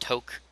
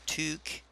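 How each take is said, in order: First: The word is said with a French-style pronunciation. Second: The word is said with a Canadian English pronunciation. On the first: The speaker calls it wrong. "that is not pronounced toque" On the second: The speaker calls it right. "It is pronounced toque"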